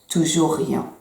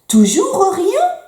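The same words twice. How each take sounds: First: The voice falls at the end, like a statement. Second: The voice rises at the end, like a question. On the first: It is stated as a plain fact. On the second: It is asked as a question.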